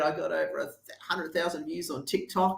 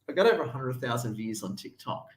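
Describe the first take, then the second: First: The voice sounds excited and triumphant. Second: The voice sounds flat and disappointed. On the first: The views are a clear success. "it wasn't like, oh my God, Ed" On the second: The views did not bring real results. "I could tell by his tone of voice that he wasn't too happy"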